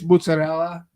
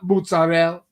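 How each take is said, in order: First: The final vowel sound is clearly pronounced. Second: The final vowel sound is dropped. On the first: The speaker calls it right. "They're not pronouncing the A. It's mozzarella" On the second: The speaker calls it wrong. "Like it's not mozzarella"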